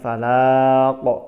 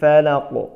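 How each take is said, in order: First: The vowel is drawn out long. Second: The vowel is kept short and quick. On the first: The speaker calls it wrong. "bukan falaq" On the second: The speaker calls it right. "Jangan dipanjangkan tetapi dipendekkan"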